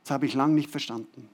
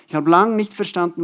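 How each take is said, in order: First: Said in the usual way. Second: Lang pressed louder and held, then falling; stress on LANG. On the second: Shown as a demonstration. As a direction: lean hard on lang, let the line fall.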